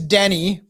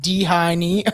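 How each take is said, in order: First: The name sounds like Denny. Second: The name sounds like D-Heine. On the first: The speaker calls it right. "his name's Denny" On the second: The speaker calls it wrong. "So I was like D Heine or something"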